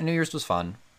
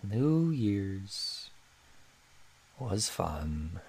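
First: It is said at a normal pace. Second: It is said very slowly, like Eeyore.

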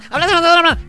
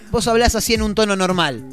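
First: It is said very fast and squeaky. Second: It is said at a normal speed.

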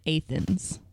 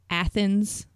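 First: The name is said the local way. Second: The name is said the standard way. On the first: "But people here call it Athens" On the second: "It's Athens"

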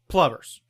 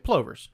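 First: The vowel does not rhyme with clovers. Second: The vowel rhymes with clovers. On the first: "Aidan Gillen says plovers" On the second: "your guys' natural reaction is to say plovers. Like clovers"

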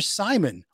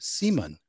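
First: It is said with an English accent. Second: It is said with a Swedish accent.

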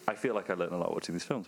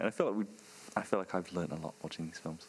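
First: The delivery sounds warm and sincere. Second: The delivery sounds flat and insincere. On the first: The speaker calls it right. "That sounded better" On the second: The speaker calls it wrong. "I struggle to say that in a way that sounded sincere"

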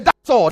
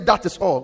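First: The words 'that is' are contracted. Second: The words 'that is' are said in full. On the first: The speaker calls it right. "you have to say that's all" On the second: The speaker calls it wrong. "Don't say that is all"

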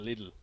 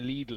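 First: The name is said with an English pronunciation. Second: The name is said with a German pronunciation. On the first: "as opposed to Lidl" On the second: "it's a very German if you say Lidl"

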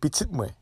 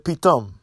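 First: The word is said as three syllables. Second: The word is said as two syllables. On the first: This is the Port-au-Prince dialect form. "We say pititme" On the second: This is the northern Haitian dialect form. "In the north, they say pitam"

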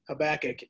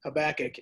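First: The stress is on the middle syllable. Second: The stress is on the middle syllable.

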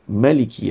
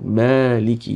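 First: The first vowel 'a' is short. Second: The first vowel 'a' is long. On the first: It means king. "When you read it short" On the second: It means owner or master. "When you read it long"

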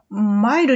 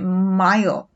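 First: The word ends on an open vowel sound. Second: The word ends on a held L sound. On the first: The speaker calls it wrong. "マイルではなくて" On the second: The speaker calls it right. "L サウンドの時は必ず下を上の歯の裏の部分に"

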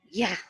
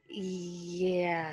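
First: The word is said quickly. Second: The word is said at an unhurried pace. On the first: The speaker calls it right. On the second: The speaker calls it wrong.

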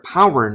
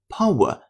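First: It is said with an American pronunciation. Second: It is said with a British pronunciation. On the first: "美音power" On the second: "这单词的英音是power"

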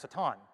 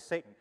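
First: It is said the original Hebrew way. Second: It is said the familiar English way. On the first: The speaker calls it right. "But it's actually pronounced Satan" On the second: The speaker calls it wrong. "our vernacular has changed and we all say Satan"

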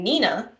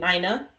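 First: The name is said not rhyming with Dinah. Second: The name is said to rhyme with Dinah. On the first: "then I Googled it, and people were saying" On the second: "I pronounced it so it rhymed with Dinah"

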